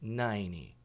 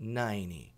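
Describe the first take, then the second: First: The T in the middle is dropped. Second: The T in the middle is dropped.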